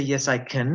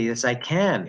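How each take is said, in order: First: "can" reduced to "kin" at the end; wrong weak CAN. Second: "can" with an open A as in hat; strong A in CAN. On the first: Teacher showing what they don't say, reduced CAN. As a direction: weaken the vowel of the final "can". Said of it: "They don't say". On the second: Teacher showing what they say, strong A. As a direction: give the final "can" its full vowel. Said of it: "We clearly hear a strong A sound". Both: Shown as a demonstration.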